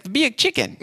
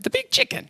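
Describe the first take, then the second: First: High-pitched, more convincing Southern lady; better Southern accent. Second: Badly faked Southern lady, squeaked way up; poor Southern accent. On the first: Retold or imitated. Lady repeats the landmark to a baffled caller, Southern accent. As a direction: imitate a Southern woman, pitched way up. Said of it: "That was better". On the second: Imitating the lady on the phone, not very good Southern accent. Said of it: "I don't have a very good Southern accent".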